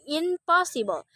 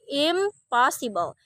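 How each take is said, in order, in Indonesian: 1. Awalan itu berakhir dengan bunyi N. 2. Awalan itu berakhir dengan bunyi M. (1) "We don't say impossible" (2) "The N becomes M"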